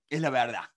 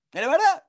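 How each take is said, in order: First: Said low and flat; low flat statement. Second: High, loud rising insistence; emphatic high exclamation. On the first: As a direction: drop it low and plain. (dicho grave y seco) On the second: (exclamación aguda y fuerte) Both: Shown as a demonstration. Repite la frase contrastando.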